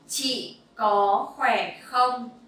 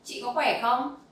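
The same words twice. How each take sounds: First: It is said at a normal, slower pace. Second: It is said at a faster pace.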